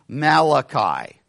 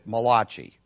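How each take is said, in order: First: The name is said in a plain English way. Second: The name is said like an Italian word.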